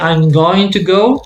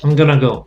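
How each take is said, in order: First: Going to is said in full. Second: Going to is reduced to gonna. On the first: "instead of saying" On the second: "gonna ... it's street language"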